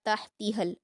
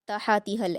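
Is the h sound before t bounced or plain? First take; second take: plain; bounced. First: The h sound is closed smoothly without bounce. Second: The h sound gets an added echoing bounce. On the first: The speaker calls it right. "बगैर कलकला के पढ़ना है" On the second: The speaker calls it wrong. "ऐसे नहीं पढ़ना"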